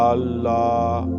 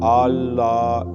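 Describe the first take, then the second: The two takes are said the same way.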